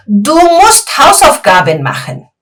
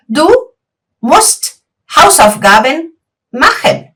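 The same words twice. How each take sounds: First: Said in the usual way. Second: Slow, word by word, pause after Du; slow dictation. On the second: Shown as a demonstration. Teacher repeats the sentence slowly so students follow. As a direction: spell it out slowly for learners. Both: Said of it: "Y yo te digo".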